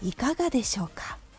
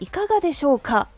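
First: The ending is placed softly and gently. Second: The final syllable か is said strongly.

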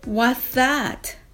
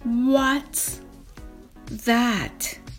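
First: The phrase is said more quickly. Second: The phrase is said slowly. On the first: "では少し早く言ってみましょう。" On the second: "はじめはゆっくりです。"

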